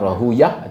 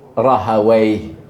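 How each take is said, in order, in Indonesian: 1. Nama itu berakhir dengan bunyi 'uyah'. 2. Nama itu berakhir dengan bunyi 'away'. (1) "dia boleh baca dengan Rahuyah ataupun Rahawai" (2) "yang orang yang cenderung ada bahasa dia kata sepatutnya uh, Rahawai"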